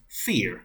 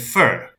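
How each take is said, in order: First: The vowel sounds like the word fear. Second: The vowel sounds like the word fur. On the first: This is the fantasy race name. "in lore, is pronounced fear" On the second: This is the word for the tree. "as in the tree, is said fir"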